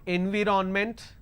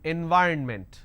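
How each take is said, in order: First: The middle is said as a full 'viron'. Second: The middle is said as a reduced 'vyern'. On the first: The speaker calls it wrong. "you end up pronouncing N V ron ment" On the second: The speaker calls it right. "N Y R N ment"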